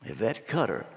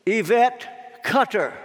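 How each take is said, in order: First: Low, soft repeat of the name; puzzled asking around. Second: Slow, high summons, drawn out; calling out a name. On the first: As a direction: pass the name along quietly, unsure who it is. Crowd asking who that is. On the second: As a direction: announce the name solemnly to a waiting crowd. Name called from the judgment seat. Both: Acted.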